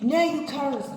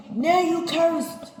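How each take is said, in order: First: "Now you cursed" said firmly, somewhat raised, stress on "Now"; firm pronouncement. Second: "Now you cursed" repeated higher, louder and slower, heavy stress on "Now"; louder, slower pronouncement. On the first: God sentencing Cain, first firm statement. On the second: God repeating Cain's sentence, louder and slower. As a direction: drive "Now you cursed" home louder the second time. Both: Acted.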